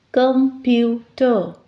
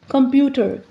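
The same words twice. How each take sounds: First: "Computer" slowly in three beats, com, pu, ter; split into syllables. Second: Said in the usual way. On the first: Shown as a demonstration. Teacher counting three syllables, "Computer" slowly split com-pu-ter. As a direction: break "Computer" into three parts with pauses between. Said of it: "three syllables". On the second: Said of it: "words with three syllables".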